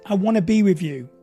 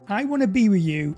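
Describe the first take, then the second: First: It is said in a calm, secure tone. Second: It is said in a needy, pleading tone. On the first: The speaker is open but not dependent. The speaker calls it right. "being vulnerable is being secure and saying" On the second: The speaker depends on the other person. The speaker calls it wrong. "Neediness. So l- listen to the contrast"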